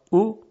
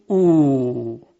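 First: "او" as a brief, higher damma sound; short vowel. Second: "او" held as a long, falling oo; stretched vowel. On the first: Teacher giving the damma first, "او" said short. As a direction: keep "او" short, not stretched. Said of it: "صدای کوتاه". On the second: Teacher showing damma lengthened, "او" sustained. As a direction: draw "او" out into a long oo. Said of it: "وقتی که اون رو بکشیم". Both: Shown as a demonstration.

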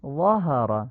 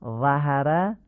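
First: 'ظهر' as 'zhohara', dark back vowel; full-mouthed short 'aa' in 'ظهر'; heavy Arabic fatha. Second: 'ظهر' as 'zahara', thin front vowels; Persian-style light 'a' in 'ظهر'; unclear light fatha. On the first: Teacher correcting the reading, heavy 'ظهر'. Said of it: "فتحهٔ وا رو باید آی کوتاه بگیم". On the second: Teacher showing the non-fluent reading, thin 'ظهر'. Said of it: "این فتحه فصیح نیست". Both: Shown as a demonstration.

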